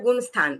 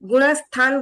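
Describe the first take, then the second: First: The ण sound is clipped to half. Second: The ण sound is said fully. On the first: The speaker calls it wrong. "ण आधा हो रहा है" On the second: The speaker calls it right. "ण पूरा है"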